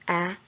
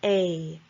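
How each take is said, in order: First: The vowel is said as a short sound. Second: The vowel is said as a long sound. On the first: "the short sound like a" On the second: "the long sounds like a"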